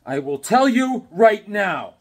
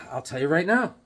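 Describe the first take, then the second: First: Louder, slower, stressing "tell"; emphatic. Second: Said in the usual way. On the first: Shown as a demonstration. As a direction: punch "tell" in "I will tell you right now".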